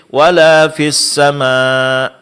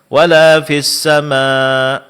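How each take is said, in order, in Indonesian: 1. Hamzah di akhir itu lemah dan hampir tidak terdengar. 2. Hamzah di akhir itu lemah dan hampir tidak terdengar.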